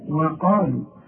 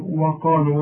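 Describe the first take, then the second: First: The opening w sound is light and thin. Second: The opening w sound is heavy and thick. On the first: The speaker calls it right. "الواو دائما في القران مرققه" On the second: The speaker calls it wrong. "وده خطا"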